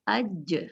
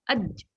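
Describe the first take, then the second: First: The final j is released with a soft bounce. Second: The final j is cut off with a catch. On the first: The speaker calls it right. "Jadi santai saja pada saat uh, dipantulkannya" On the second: The speaker calls it wrong. "jangan aj, aj seperti ada hamzah sukun"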